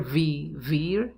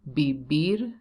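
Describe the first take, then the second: First: The first consonant sounds like an English v. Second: The first consonant sounds like a b. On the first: The speaker calls it wrong. "But never vivir, no" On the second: The speaker calls it right. "you have to pronounce B and V like B"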